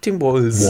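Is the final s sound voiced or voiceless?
voiced. The final s sound is voiced. "aber für dich musst du Tim Walz"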